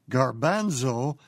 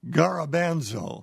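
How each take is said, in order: First: The word has three syllables, gar-ban-zo. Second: The word has four syllables, ga-ra-ban-zo. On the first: The speaker calls it right. "the word for chickpea is pronounced garbanzo" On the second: The speaker calls it wrong. "not garabanzo"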